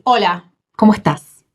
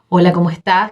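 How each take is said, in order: First: The greeting is said in an exaggerated way. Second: The greeting is said in a plain way.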